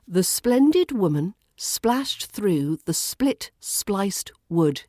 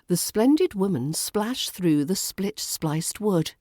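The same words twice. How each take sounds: First: The sentence is spoken slowly. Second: The sentence is spoken at natural speed. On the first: "So say this slowly" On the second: "Then try it naturally"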